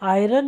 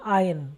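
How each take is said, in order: First: It is said with an r sound: eye-ron. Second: It is said without an r sound: eye-un. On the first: The speaker calls it wrong. "आयरन नहीं कही जाएगी" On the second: The speaker calls it right. "वो कहलाती है आयन"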